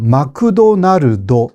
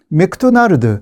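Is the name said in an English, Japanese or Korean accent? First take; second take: Japanese; Korean. First: A vowel follows every consonant, Japanese style. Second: It is said with Korean loanword syllables.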